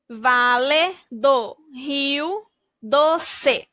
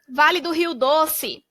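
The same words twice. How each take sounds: First: Very slow "Vale do Rio Doce", vowels drawn out; slow stretched reading. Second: Said in the usual way. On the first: Shown as a demonstration. Teacher blends the region name slowly for kids. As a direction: stretch every syllable so kids can follow. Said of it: "blending syllables into the word". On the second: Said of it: "title read before syllables".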